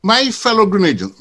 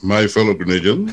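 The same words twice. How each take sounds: First: Grand stage opening, chest out; thespian voice. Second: Lower, laughing stage actor take; booming mock orator, breaking into laughter; hammy thespian voice. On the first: Pretend. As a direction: address the nation like a ham actor. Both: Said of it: "go to my thespian voice".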